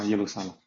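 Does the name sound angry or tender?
tender. The name is called softly and tenderly. The city is lovingly called back. The speaker calls it right. "他说耶路撒冷啊"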